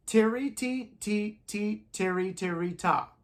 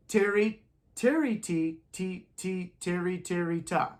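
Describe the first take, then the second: First: Tiri and ti spoken slowly in time; rhythm syllables. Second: Tiri, ti, ta chanted in time; rhythm syllables. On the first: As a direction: chant the rhythm for the class. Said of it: "let's take a look at that". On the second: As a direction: chant along with the class. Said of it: "Say it with me". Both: Shown as a demonstration.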